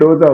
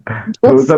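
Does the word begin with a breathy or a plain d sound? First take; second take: plain; breathy. First: The first consonant is plain, without aspiration. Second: The first consonant is breathy and aspirated. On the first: The speaker calls it right. "डोसा होता है" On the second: The speaker calls it wrong. "डोसा तो होता ही नहीं है"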